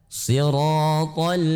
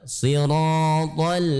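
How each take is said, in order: The two takes are said the same way.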